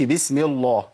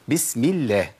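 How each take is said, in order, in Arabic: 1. لام "الله" مفخمة وثقيلة. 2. لام "الله" مرققة وخفيفة. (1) "ما اقولش بسم الله، ما ينفعش" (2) "ترقق لام لفظ الجلاله ... اذا كسر ما قبلها"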